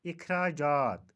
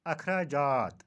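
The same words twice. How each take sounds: First: इखराजात opening on short i, slow; इखराजात with i as first vowel; correct pronunciation. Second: अखराजात opening on short a; अखराजात with a as first vowel; mispronunciation. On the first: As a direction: say इखराजात slowly as ikh-raa-jaat. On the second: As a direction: say अखराजात as akh-raa-jaat. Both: Shown as a demonstration. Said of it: "का सही तलफ़ुज़".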